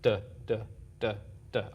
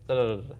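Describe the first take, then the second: First: It is said slowly with pauses. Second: It is said quickly without pauses.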